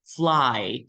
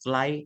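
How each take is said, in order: First: The opening vowel of the diphthong is long. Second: The opening vowel of the diphthong is short. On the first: The speaker calls it right. "jadi agak panjang sedikit uh, huruf A-nya" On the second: The speaker calls it wrong. "jangan bacanya kayak"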